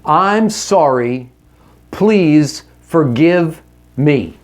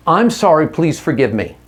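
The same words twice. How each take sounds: First: Slow, deliberate sincere apology; slow earnest apology to your wife. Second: Said in the usual way. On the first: Shown as a demonstration. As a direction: lay out each word slowly and earnestly. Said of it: "Here's how you start". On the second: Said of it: "Five words".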